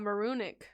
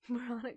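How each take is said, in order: First: The name begins like the word maroon. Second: The name begins like the word moron. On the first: "It's based on Maroon" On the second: "Moronic sounds fine"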